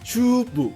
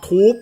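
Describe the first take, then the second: First: It is said as two syllables, 'chubu'. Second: It is said as one syllable, 'toob'. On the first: "ออกเสียงทูบแบบญี่ปุ่นเขาจะออกเสียงว่าชูบุ" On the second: "ให้เราอ่านเป็นภาษาอังกฤษนะครับ"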